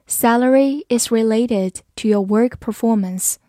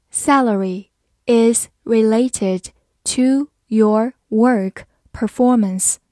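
First: Said in the usual way. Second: Slow, careful word-by-word reading. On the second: Shown as a demonstration. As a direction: read it slowly for learners. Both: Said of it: "好，慢慢来读。".

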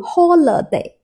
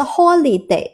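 First: "holiday" said as ho-luh-day; British "holiday" with LUH as second syllable; schwa middle vowel. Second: "holiday" said as ho-lee-day; "holiday" mispronounced with LEE as second syllable; wrong middle vowel. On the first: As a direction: reduce the middle of "holiday" to a neutral uh. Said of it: "它是读holiday啊". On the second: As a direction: give "holiday" a clear ee in the middle. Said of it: "不是holiday啊". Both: Shown as a demonstration.

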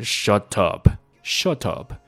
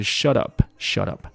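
First: British shut up, hard t. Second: British shut up, t fully released. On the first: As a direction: shut up with a clean released t. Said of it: "英国人在读的时候读的是". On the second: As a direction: shut up with a crisp full t, no flap. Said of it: "英国人在读的时候". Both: Shown as a demonstration.

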